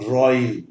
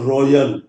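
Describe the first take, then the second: First: The ending has a very short 'uh' vowel. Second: The ending has a 'yuh' sound. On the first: The speaker calls it right. "ये बहुत ही short sound ए" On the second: The speaker calls it wrong. "यल कहना गलत है"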